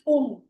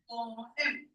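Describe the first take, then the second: First: The word is squeezed into one syllable. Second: The word is said with two clear syllables. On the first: The speaker calls it wrong. "do not pronounce this poem" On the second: The speaker calls it right. "This is having two syllables"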